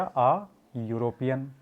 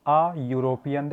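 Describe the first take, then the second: First: "आ" stretched long and slow before European; drawn-out article. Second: Said in the usual way. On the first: Shown as a demonstration. Teacher showing the class how to say "आ" before European. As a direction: linger on the "आ", then say European slowly. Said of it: "तो वहाँ पर क्या आ गया". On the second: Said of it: "देखो यहाँ पर ई से उच्चारण".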